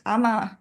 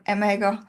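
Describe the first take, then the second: First: The word is said short, with no g sound. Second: The word is said as spelled, with a g sound. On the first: The speaker calls it right. "is pronounced ama" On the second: The speaker calls it wrong. "and not amager"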